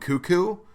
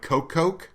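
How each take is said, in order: First: The name sounds like the word 'cuckoo'. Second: The name sounds like 'coke' said twice. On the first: "I've heard the announcers call him Cuckoo" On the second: "my instinct is to pronounce it like Coke Coke, but I don't think that's right"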